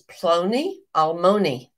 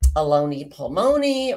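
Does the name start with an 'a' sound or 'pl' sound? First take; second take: pl sound; a sound. First: The name begins with a 'pl' sound. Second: The name begins with an 'a' sound. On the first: The speaker calls it right. "That's the correct pronunciation" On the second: The speaker calls it wrong. "I think I may have said Aloni Palmoni"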